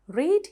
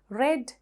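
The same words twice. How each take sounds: First: The vowel is long, like in 'reed'. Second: The vowel is short, like in 'red'. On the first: It is the present or base form. "Read is the base form" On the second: It is the past or past participle form. "pronounced as read ... R E D වගේ තමයි pronounce කරන්නේ"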